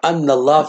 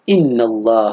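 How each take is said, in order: First: The first word begins with an 'a' vowel. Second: The first word begins with an 'i' vowel. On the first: The speaker calls it wrong. "إذا فتح همزة الهمزة في أول الكلام" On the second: The speaker calls it right. "فيجب أن تكسر همزة إن"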